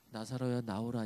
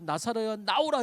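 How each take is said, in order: First: It is said quietly and timidly. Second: It is said loudly and boldly.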